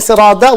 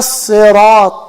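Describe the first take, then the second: First: The middle consonant is a D sound. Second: The middle consonant is a T sound. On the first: It no longer means the straight path. The speaker calls it wrong. "if a person changes it to da" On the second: It means the straight path. The speaker calls it right. "that's the correct pronunciation"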